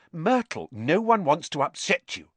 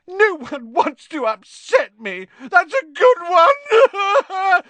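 First: Put-on placating in a raised girlish voice; higher, soothing appeal; reassuring. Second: Very high, slow, loud wailing; tearful howl. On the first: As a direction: gently talk down someone upset. Hermione soothes the upset ghost. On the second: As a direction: howl the words back in bitter disbelief. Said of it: "howled Myrtle". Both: A narrator's reading.

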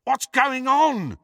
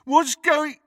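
First: High, slow, drawn-out shout. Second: High, loud mock shout; mocking mimicry. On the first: Ron shouts from beyond the junk wall, loudly. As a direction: holler an anxious question from afar. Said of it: "shouted Ron again". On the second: Crabbe mimics Ron's question, mockingly. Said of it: "mimicked Crabbe". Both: A narrator's reading.

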